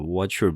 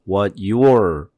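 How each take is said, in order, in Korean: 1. t와 y가 섞여서, 빠르게 말해요. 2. 두 단어는 따로, 이어지지 않게 말해요. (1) "사실은 what your body says. 이렇게 빨리 하면 그렇게 되죠" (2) "띄우면 이렇게 되지만"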